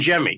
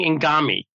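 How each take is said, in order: First: The G is soft, sounding like J. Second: The G is hard, like in origami. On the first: The speaker calls it right. "Pete's name has a soft G. Pronounced like a J" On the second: The speaker calls it wrong. "I was saying Ingami, like he's a Japanese folding paper art"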